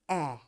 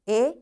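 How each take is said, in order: First: The vowel is said with its short sound. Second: The vowel is said with its long sound.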